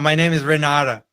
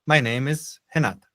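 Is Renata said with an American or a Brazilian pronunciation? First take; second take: American; Brazilian. First: The name is said with an American pronunciation. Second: The name is said with a Brazilian pronunciation. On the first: The name is adapted to English speakers. The speaker calls it wrong. "é assim que o americano iria falar se ele lesse o seu nome" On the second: The name is kept as in the original language. The speaker calls it right. "Mas ela fala"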